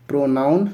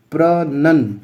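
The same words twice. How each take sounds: First: प्रोनाउंसिएशन with "nown" like the noun; प्रोनाउंसिएशन said the wrong way, "pro-NOWN-ciation"; common wrong pronunciation. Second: प्रोनंसिएशन with a short "nun", not "noun"; प्रोनंसिएशन said the right way, "pro-NUN-ciation"; correct pronunciation. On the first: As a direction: demo the mistake, saying प्रोनाउंसिएशन with a "noun" sound in the middle. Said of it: "कई लोग इसको प्रोनाउंसिएशन पढ़ते हैं". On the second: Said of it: "ये होता है प्रोनंसिएशन". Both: Shown as a demonstration.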